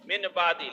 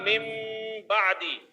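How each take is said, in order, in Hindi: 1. b से पहले n ध्वनि बोली जाती है। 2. b से पहले m ध्वनि बोली जाती है। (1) "असल में क्या है, मिन बादी है" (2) "नून साकिन को मीम से बदल देंगे"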